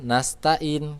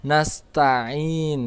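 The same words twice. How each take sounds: First: "nastain" with a plain glottal stop; hamzah instead of ain. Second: Slow "nasta'in" with throaty ain and long ending; correct ain. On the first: Teacher shows the mistake, "nastain" with hamzah. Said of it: "Kalau nastain itu hamzah". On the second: Teacher models the letter, slow "nasta'in" with ain. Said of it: "di situ adalah huruf ain". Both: Shown as a demonstration.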